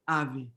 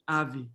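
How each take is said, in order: No difference in how they are said.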